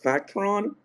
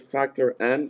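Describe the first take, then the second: First: The name runs together as one word. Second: The name is said as word plus letter. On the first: The speaker calls it wrong. "people usually uh, pronounce it Factron" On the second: The speaker calls it right. "and it's Factor N"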